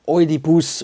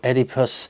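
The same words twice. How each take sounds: First: The name is pronounced with Dutch sounds. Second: The name is pronounced with English sounds.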